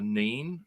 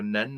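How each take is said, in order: First: The vowel is long, like 'ee'. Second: The vowel is short, like 'eh'. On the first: The speaker calls it wrong. "not the Neen" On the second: The speaker calls it right. "it's the River Nen"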